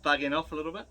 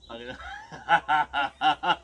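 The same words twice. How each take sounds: First: Said in the usual way. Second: Very slow with a laugh; laughing pun. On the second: Real, not acted. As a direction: stretch it out, laughing at your own joke. Repeating the pun as a dad joke.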